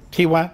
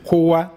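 First: The first vowel is i, as qiwwa. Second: The first vowel is u, as quwwa. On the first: It refers to mental strength. "وبالكسر إيش؟" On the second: It refers to physical strength. "قوة جسدية بالضم على فكرة"

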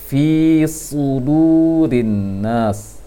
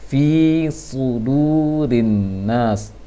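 The two takes are said the same way.

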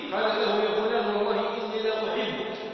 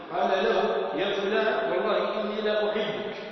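The two takes are said the same way.

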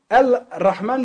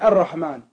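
First: The l of the article is clearly pronounced. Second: The l is silent and merges into the r. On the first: The speaker calls it wrong. "liest man nicht" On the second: The speaker calls it right.

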